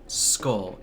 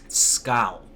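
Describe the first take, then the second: First: The vowel is said in a plain ordinary way. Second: The vowel is hit hard and drawn out. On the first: The speaker calls it wrong. "It's not skull" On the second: The speaker calls it right. "You have to hit that U with a very hard accent"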